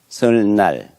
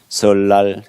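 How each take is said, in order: First: The second syllable begins with an n sound. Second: The second syllable begins with an l sound. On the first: It follows the spelling letter by letter. The speaker calls it wrong. "아이들한테 물어보세요. 설날, ... 이렇게 발음해요" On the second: It follows natural spoken Korean. The speaker calls it right. "이런 발음이 자연스럽게 나오도록"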